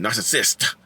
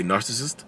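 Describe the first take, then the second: First: "narcissist" with every syllable pronounced, ending hard on SIST; extra syllable. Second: "narcissist" in an easy Southern drawl, syllables run together. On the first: Retold or imitated. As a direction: spell out each syllable of "narcissist", mimicking a corrector. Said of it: "there's an extra syllable". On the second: Shown as a demonstration. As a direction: let "narcissist" slide out in your own drawl. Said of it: "it's a Southern drawl".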